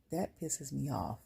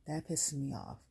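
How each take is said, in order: First: That pisses me off drawn out slowly, each word leaned on; slowed emphatic repeat. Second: Said in the usual way. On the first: Real, not acted. Venting to viewers, hammering the point slowly.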